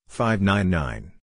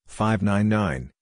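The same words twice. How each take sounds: The two takes are said the same way.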